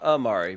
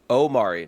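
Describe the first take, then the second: First: The name begins with an 'ah' sound. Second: The name begins with an 'oh' sound. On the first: The speaker calls it wrong. "not Amari" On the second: The speaker calls it right. "So Omari"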